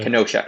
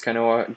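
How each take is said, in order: First: The name is said with a 'sh' sound. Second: The name is said without a 'sh' sound. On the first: The speaker calls it right. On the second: The speaker calls it wrong. "I believe it's Kenowa. That's how you pronounce it. Please correct me"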